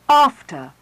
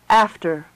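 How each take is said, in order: First: It is said in an RP accent. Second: It is said in a General American accent.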